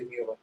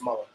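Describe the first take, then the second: First: The U vowel is clearly sounded. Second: The U vowel is not sounded. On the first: The speaker calls it wrong. "I hate when you say Mueller" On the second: The speaker calls it right. "It's Mueller"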